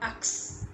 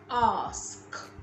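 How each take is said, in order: First: The word ends with k followed by s. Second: The word ends with s followed by k. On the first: The speaker calls it wrong. "some people who say ax instead of ask" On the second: The speaker calls it right. "So the S come before the K"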